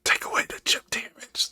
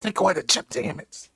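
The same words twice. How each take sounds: First: Whisper. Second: Stage whisper. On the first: Mock whisper to the host. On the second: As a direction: whisper it so the mic catches it. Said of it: "You probably should stage whisper". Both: Pretend.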